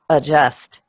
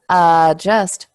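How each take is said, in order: First: The stress is on the second syllable. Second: The stress is on the first syllable. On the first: The speaker calls it right. "the stress is on just" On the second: The speaker calls it wrong. "instead of adjust"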